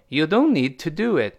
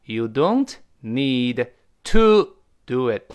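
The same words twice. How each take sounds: First: Said in the usual way. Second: Word by word with TO stressed loudly; drawn-out teaching repeat, spaced words; slow emphatic model. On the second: Shown as a demonstration. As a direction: spell it out slowly, hitting TO. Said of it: "注意".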